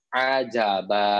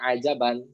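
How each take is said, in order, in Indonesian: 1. Kata ini berakhir dengan vokal panjang, tanpa n. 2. Kata ini berakhir dengan vokal pendek lalu n. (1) "ketika kita diberhentikan, diwakafkan, maka berubah dia menjadi mad. Jadi panjang-panjangnya dua harokat" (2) "kalau misalkan dibaca wasol namanya ajaban"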